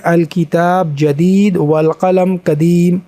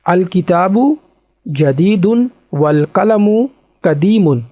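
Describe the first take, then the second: First: The final vowel and -un endings are dropped. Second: The final vowel and -un endings are pronounced. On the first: This is how it is said in speech. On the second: This is the full form as it is written.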